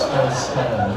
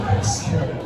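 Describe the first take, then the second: First: Said in the usual way. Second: A hushed spooky Very scary; whispered repeat. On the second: Shown as a demonstration. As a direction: whisper Very scary, much lower.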